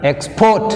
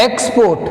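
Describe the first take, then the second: First: Export as ex-PORT, port stressed and rising. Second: Export as EX-port, ex hit high; stress on EX. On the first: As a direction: stress the second syllable in export. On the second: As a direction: stress the first syllable in Export. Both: Shown as a demonstration.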